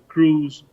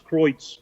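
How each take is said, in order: First: The name is said like the English word cruise. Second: The name is said with German vowels. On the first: "Some people call it Cruise" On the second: "the real pronunciation German is"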